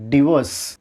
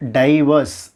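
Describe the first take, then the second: First: டிவோர்ஸ் as di-VOSS; correct divorce. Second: டைவர்ஸ் as DIE-vas; mispronounced divorce. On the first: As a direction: say டிவோர்ஸ் with dih and a long O. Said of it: "it's டிவோர்ஸ்". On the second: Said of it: "not டைவர்ஸ்". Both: Shown as a demonstration.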